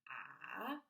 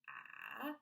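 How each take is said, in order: Both takes have the same delivery.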